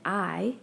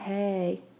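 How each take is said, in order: First: The word sounds like 'eye' with no h. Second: The word sounds like 'hey' with an h. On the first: The speaker calls it right. "we need to remember that I, H A Y" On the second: The speaker calls it wrong. "it's not hey"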